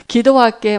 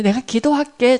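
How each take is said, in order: First: 한 번 더 대충 던지는 "기도할게"; 성의 없이 되뇌기. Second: 믿음 없이 대충 하는 약속; 마지못해 던지듯 말하기. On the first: (건성으로 다시 "기도할게") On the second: (건성으로 "기도할게") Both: Retold or imitated. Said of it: "잘 믿지도 않으면서".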